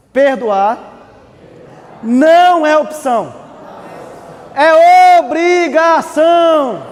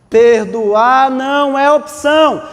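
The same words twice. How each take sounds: First: Slow, building to a shout; emphatic shout. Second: Each word weighted, slow; slow emphatic. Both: Shown as a demonstration. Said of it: "Vou repetir".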